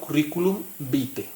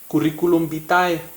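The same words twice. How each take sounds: First: Vitae is said with two syllables, like vite. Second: Vitae is said with three syllables, as spelled. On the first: The speaker knows Latin pronunciation. "la manera correcta como se lee en latín es vite" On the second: The speaker does not know Latin pronunciation. "lo correcto es leerlo tal como está escrito"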